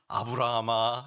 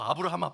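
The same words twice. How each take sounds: First: The name is drawn out slowly and deeply. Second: The name is called out quickly and briefly. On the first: "천천히 읽어요. 아브라함아, 이렇게 아주 그냥 속에서" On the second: "빨리 부르면 되지"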